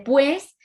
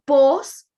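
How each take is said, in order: First: The word has the ue diphthong. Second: The word has a single o vowel. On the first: "en vez de pues" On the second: "cuando dice pos"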